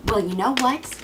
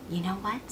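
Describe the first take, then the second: First: Said in the usual way. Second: Low, hushed challenge; quiet menace. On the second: Acted. Cassandra turning on Apollo, quiet threat. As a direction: drop it soft and threatening.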